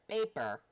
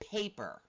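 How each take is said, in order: First: The first p has no puff of air. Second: The first p has a strong puff of air. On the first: This is how it sounds in Spanish. "I got no air. Paper, paper, because it's a non-aspirated P" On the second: This is how it sounds in English. "we throw out all this air afterwards"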